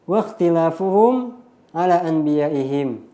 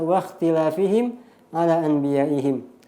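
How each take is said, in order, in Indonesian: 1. Kata pertama berakhiran vokal u-hum. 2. Kata pertama berakhiran vokal i-him. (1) "Ketika dibaca marfu' waqtilafuhum" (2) "apabila dibaca waqtilafihim"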